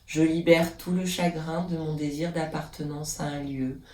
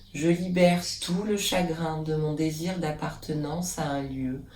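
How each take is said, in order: No difference in how they are said.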